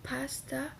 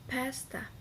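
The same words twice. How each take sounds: First: "pasta" with a broad ah in the first syllable; first pronunciation variant. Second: "pasta" with a fronter a, as in "cat"; second pronunciation variant. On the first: Student showing classmates free variation, first pronunciation variant. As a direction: say "pasta" as PAHS-tah. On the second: Student showing classmates free variation, second pronunciation variant. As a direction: say "pasta" as PASS-tah. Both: Shown as a demonstration. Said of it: "you can pronounce with".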